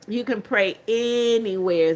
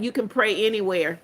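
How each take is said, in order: First: "can" leaned on, said slowly; slow down and hit "can" in "You can pray anywhere"; stress on can. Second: Said in the usual way. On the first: Real, not acted.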